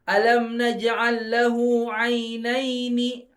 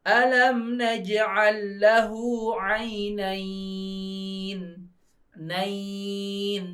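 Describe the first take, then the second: First: The word flows on without stopping or lengthening. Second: The reading stops with a lengthened final syllable. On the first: "nggak berhenti kan, nggak ada wakofnya" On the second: "Kalau diwakofkan"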